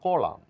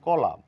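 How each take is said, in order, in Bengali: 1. শেষের n নীরব। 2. শেষের n নীরব।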